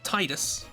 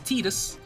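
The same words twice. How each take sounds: First: The first part sounds like the word tides. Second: The first part does not sound like tides. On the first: The name is linked to tides and water. The speaker calls it wrong. "I always pronounced it Tidus... tides, water, it makes sense" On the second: The name means sun. The speaker calls it right. "Turns out it's Tidus"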